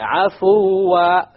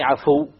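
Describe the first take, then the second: First: The word ends with a long 'aa' vowel. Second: The word ends clipped, without a long vowel. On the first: The speaker calls it right. "You stop with the alif" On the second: The speaker calls it wrong. "You wouldn't say عَفُو"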